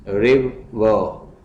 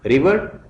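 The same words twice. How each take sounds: First: river very slowly as रिव, pause, वर; split into syllables. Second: Said in the usual way. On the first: Shown as a demonstration. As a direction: break river into two drawn-out beats. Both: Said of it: "syllables में divide करना है".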